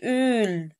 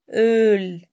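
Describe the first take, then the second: First: أول with a tight ü, drawn out slowly; over-rounded vowel. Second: أول as Öl with a long open ö, loud; correct open ö. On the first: Teacher shows the wrong way, slow tight ü. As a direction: pucker hard on the vowel of أول. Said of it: "أول كده غلط". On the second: Teacher models the right vowel, loud open ö. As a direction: punch أول out on a loose ö. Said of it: "مش أول". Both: Shown as a demonstration.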